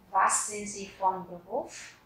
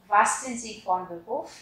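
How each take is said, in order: First: Slow repeat. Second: Said in the usual way. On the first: Shown as a demonstration. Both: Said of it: "teacher repeats question".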